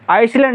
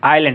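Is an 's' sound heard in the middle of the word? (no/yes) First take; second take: yes; no. First: An 's' sound is pronounced before the 'l'. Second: No 's' sound is pronounced before the 'l'. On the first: The speaker calls it wrong. "इसको आइसलैंड पढ़ते हैं अक्सर लड़के, आइसलैंड नहीं होगा" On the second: The speaker calls it right. "ये आइलैंड एस यहाँ पे साइलेंट होगा"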